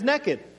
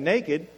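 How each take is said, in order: First: It is said in a folksy Oklahoma pronunciation. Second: It is said in a formal, standard pronunciation. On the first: "But I understand it as naked" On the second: "You can be formal and you can be very straight up and you can say naked"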